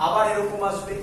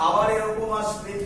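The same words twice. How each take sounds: The two takes are said the same way.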